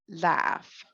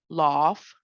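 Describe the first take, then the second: First: It is said with an American accent. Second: It is said with a British accent.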